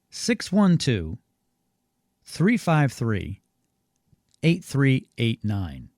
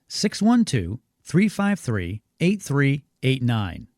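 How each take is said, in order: First: The number is said a little slower. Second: The number is said at normal speed.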